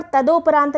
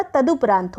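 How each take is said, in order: First: तदोपरांत said with o in the middle, tadoprant; wrong o vowel. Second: तदुपरांत said with u in the middle, taduprant; तदुपरांत with a short middle u; correct u vowel. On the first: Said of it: "तदोपरांत नहीं होता". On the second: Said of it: "तदुपरांत होता है". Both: Shown as a demonstration.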